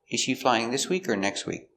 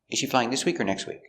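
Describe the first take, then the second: First: The question is said slowly. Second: The question is said at normal speed.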